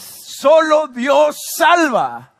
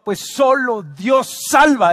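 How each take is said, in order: First: High, very drawn-out cry; triumphant, stretched proclamation; climactic preacher's shout. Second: Loud, slow and raised; emphatic but short of shouting; firm proclamation. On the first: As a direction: shout each word slowly to the whole church. Climactic repeat of key phrase. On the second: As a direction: declare it with pulpit conviction. First proclamation of key phrase. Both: Real, not acted.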